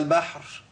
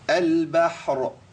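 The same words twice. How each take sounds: First: The final r fades into just breath. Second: The final r sound is clearly pronounced. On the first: The speaker calls it wrong. "ويطلع هوا" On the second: The speaker calls it right. "ايوه طلع كده"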